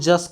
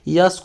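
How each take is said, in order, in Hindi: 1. शब्द की शुरुआत j ध्वनि से होती है। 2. शब्द की शुरुआत y ध्वनि से होती है।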